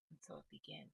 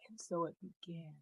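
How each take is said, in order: First: Soft, near-whispered repeat; murmured back to yourself; hushed echo. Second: Said in the usual way. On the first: Shown as a demonstration. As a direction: let the words fall away quietly, like an echo. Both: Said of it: "I hear Spirit say".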